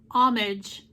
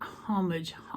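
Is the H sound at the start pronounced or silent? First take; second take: silent; pronounced. First: The word begins without any H sound. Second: The word begins with an audible H sound.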